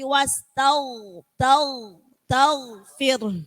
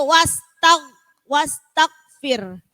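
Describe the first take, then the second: First: The sound flows smoothly through the whole word. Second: The sound is cut off abruptly inside the word. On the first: The speaker calls it right. "tapi ... Mengalir" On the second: The speaker calls it wrong. "tidak boleh"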